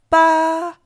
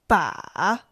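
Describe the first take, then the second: First: The pitch stays high and level. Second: The pitch dips low, then rises.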